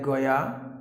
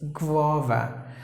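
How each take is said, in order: First: The word sounds like 'goya'. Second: The word sounds like 'gwava'. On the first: The speaker calls it wrong. "Some people may pronounce it like Goya. No, don't do that" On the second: The speaker calls it right. "It's guava"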